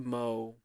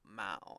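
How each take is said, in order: First: The vowel rhymes with 'go'. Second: The vowel rhymes with 'cow'. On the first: The speaker calls it right. "like actually like mowing the lawn" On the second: The speaker calls it wrong. "not mow"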